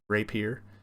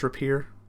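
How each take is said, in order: First: The first vowel is a long A sound. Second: The first vowel is a short A sound. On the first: "the A would get the uppercase pronunciation" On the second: "I believe it's rapier"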